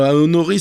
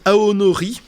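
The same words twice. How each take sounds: First: Said in the usual way. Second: Aonori said with a put-on Japanese accent, rising at the end; mock Japanese pronunciation of aonori. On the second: Shown as a demonstration. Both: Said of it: "excusez mon accent japonais aussi".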